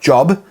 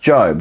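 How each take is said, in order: First: The vowel is short, like in 'job'. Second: The vowel is long, like in 'robe'. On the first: The speaker calls it wrong. "It's not Job" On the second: The speaker calls it right. "it's Job. That's how you say it"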